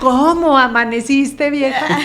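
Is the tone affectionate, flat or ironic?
ironic. It is said in a mocking, ironic tone.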